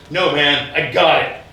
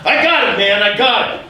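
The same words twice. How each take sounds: First: Firm, slightly louder brush-off; brusque refusal. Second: Loud, high-pitched exasperated retort; irritated outburst. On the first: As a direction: wave off the help firmly. Man first brushes off offered help. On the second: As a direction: snap loudly at the would-be helper. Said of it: "calm down". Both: Retold or imitated.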